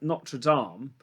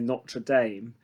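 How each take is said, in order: First: It is said in a British accent. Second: It is said in an American accent.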